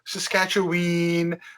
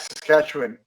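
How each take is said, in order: First: The final syllable sounds like 'win'. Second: The final syllable sounds like 'wan'. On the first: The speaker calls it wrong. "They'll go Saskatchewan" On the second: The speaker calls it right. "we pronounce it Wan, not Win"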